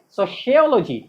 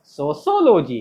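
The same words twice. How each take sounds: First: SOCIOLOGY as so-she-OL-o-jee, falling; correct pronunciation. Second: SOCIOLOGY as a lower so-so-lo-jee; wrong pronunciation. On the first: Teacher drills the class, सोशियोलॉजी as "so-she-ol-o-jee". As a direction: say सोशियोलॉजी with SH in the second syllable. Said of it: "क्या होता है?". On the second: Teacher mocks local pronunciation, सोशियोलॉजी as "so-so-lo-jee". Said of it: "क्या मतलब pronunciation होता है हम लोगों का?". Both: Shown as a demonstration.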